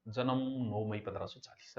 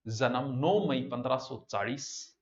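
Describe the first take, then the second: First: Softer, lower murmured recitation to oneself; quietly reciting to memorise; rote recitation. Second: Slow, word by word, like dictating a note; dictating at a slow pace; slow dictation. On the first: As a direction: mumble the date over as if memorising it. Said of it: "जन्म याद करो". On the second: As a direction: spell the date out slowly for students to copy. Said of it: "इसको दो तरीके से लिखना है आपको". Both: Shown as a demonstration.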